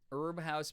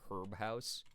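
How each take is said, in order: First: Herb is said the American way. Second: Herb is said the British way.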